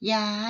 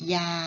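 First: The word is said on a high tone. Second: The word is said on a level mid tone. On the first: "เป็นเสียงตรีนะคะ" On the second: "พื้นเสียงของยาเป็นเสียงสามัญ"

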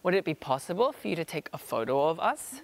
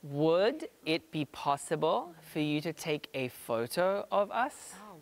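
First: The sentence is spoken at normal conversational speed. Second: The sentence is spoken slowly and carefully.

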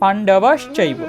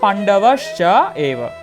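First: It is said as one joined word. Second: It is said split into three separate parts. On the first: "আমরা উচ্চারণটা কি করি" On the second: "যখন আমরা ভেঙে উচ্চারণ করবো তখন এটা হবে চ এব"

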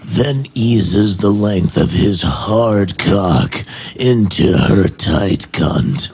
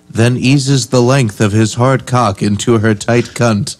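First: It is read in a dramatic movie-trailer voice. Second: It is read in a plain normal voice.

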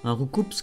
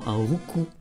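First: The final S sound is pronounced. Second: The final S sound is silent. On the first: This is the form used in the animated series. "dans l'animé ils ont dit Roucoups" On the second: This is the name as originally intended. "On prononce pas le S"

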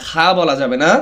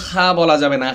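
Both takes have the same delivery.

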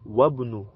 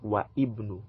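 First: The first vowel of ibnu is dropped. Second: The first vowel of ibnu is kept. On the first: The speaker calls it right. "So it will now be Wabnu" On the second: The speaker calls it wrong. "and not Wa Ibnu"

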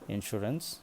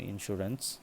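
No difference in how they are said.

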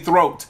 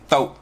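First: It is said in a plain standard pronunciation. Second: It is said in a Black vernacular pronunciation. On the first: "They don't say throat" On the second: "They say throat"

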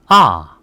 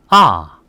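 First: The pitch drops sharply from high. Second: The same.

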